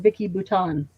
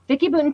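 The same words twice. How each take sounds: First: The surname is given a French-style pronunciation. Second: The surname is given a plain English pronunciation. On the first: The speaker calls it wrong. "I always called her Vicky Bouton. I thought she was French" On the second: The speaker calls it right. "I'm going to say it right from now on"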